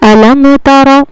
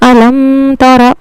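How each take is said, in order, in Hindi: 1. m साफ़ और जल्दी पढ़ा जाता है, इसमें गुन्ना नहीं होता। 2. m को गुन्ना के साथ, नाक की गूँज में पढ़ा जाता है। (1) "यहाँ पर गुन्ना नहीं होगा बल्कि यहाँ पर हमें इजहार करना है" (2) "आमतौर पर इसको ख्वातीन पढ़ती हैं, वो पढ़ती हैं"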